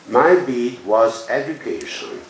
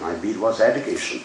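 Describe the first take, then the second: First: It is read at a slower, ordinary pace. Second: It is read at a faster, fluent pace.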